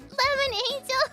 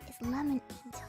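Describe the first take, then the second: First: It is said loudly. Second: It is said softly.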